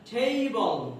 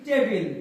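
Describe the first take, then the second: First: The first t has a strong puff of air. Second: The first t is plain, without a puff of air. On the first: The speaker calls it right. "টটা কি হয়ে গেছে? ঠ হয়ে গেছে" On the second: The speaker calls it wrong. "যেমন আমরা বলি টেবিল"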